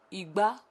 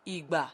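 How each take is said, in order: First: Igba said with a rising tone; Yoruba tone word. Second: Igba said with a falling tone, slowly; Yoruba tone word. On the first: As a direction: say Igba with the voice climbing at the end. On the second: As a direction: let Igba drop low and slow. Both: Shown as a demonstration. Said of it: "Igba, time".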